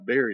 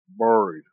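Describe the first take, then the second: First: It is said in the speaker's own pronunciation. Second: It is said in a Virginian pronunciation. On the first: "I always buried it" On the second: "I reckon I'll say it her way"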